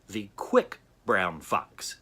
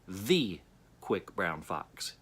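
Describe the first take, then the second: First: The word 'quick' is stressed. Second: The word 'the' is stressed. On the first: "And then quick" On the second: "underline just the first word"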